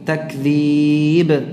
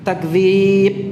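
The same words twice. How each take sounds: First: The final b is released with a bounce. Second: The final b stops dead, sounding like p. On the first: The speaker calls it right. "harus ada apa namanya? Jalan keluarnya" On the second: The speaker calls it wrong. "itu jadi seperti P ya"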